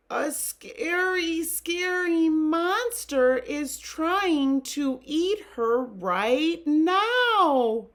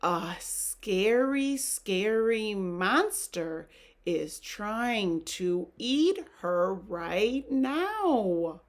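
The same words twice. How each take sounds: First: High, loud, drawn-out fright; hammed-up scared reading, slow and high. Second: Said in the usual way. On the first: Shown as a demonstration. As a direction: wail it out in storybook terror. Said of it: "I need to use a scared voice". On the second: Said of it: "gonna try that a little better".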